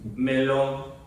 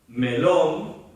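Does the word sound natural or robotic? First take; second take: robotic; natural. First: It is said flat and mechanical, like a robot. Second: It is said with natural, meaningful intonation. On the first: The speaker calls it wrong. "No soy un autómata, no soy un robot" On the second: The speaker calls it right. "si yo digo melón"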